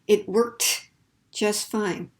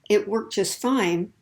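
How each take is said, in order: First: The T in worked is clearly pronounced before just. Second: The T in worked is dropped before just. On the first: The speaker calls it wrong. "if I force myself to say it, it sounds a little unnatural" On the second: The speaker calls it right. "Notice that you don't hear that T sound"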